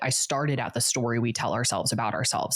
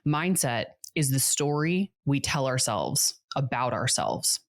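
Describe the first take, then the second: First: It is said at normal speed. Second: It is said more slowly.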